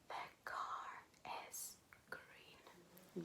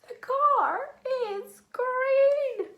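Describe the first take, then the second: First: It is said in a whisper. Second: It is said in a funny voice.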